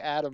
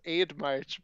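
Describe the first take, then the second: First: The name begins with an 'add' sound. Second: The name begins with an 'aid' sound. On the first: This is how the other person always says it. "but you always say Adam" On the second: This is how the speaker always read it. "I've always read it as Aid March"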